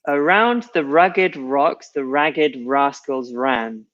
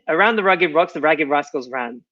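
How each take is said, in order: First: The sentence is said at a slow pace. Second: The sentence is said at a fast pace. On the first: "so I'll read it slowly first" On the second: "I'm going to try and say it quickly now"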